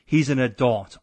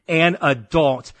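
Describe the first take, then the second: First: Said in the usual way. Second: "an adult" punched louder and slower; all caps emphasis. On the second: Shown as a demonstration. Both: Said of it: "all caps".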